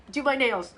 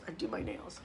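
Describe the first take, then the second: First: Said in the usual way. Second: Whispered aside. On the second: Real, not acted. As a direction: whisper it, much softer than the line before. Repeats it as an aside.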